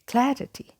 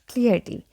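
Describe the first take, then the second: First: The first vowel sounds like in cat. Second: The first vowel sounds like in clear. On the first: The speaker calls it right. "Letter A has a sound like we have in cat" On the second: The speaker calls it wrong. "I have seen people pronounce it like clarity"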